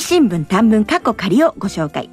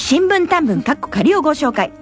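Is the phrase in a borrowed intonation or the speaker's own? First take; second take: own; borrowed. First: It uses the speaker's own intonation pattern. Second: It uses another person's intonation pattern. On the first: "私のイントネーションでいきます" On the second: "このイントネーションはうちのリーダーの言ってるイントネーションでしたね"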